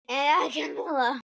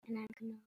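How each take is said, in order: First: It is said loudly. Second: It is said quietly.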